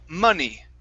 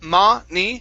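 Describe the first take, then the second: First: The pitch does not go up through the word. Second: The pitch goes up through the word. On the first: The speaker calls it right. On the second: The speaker calls it wrong.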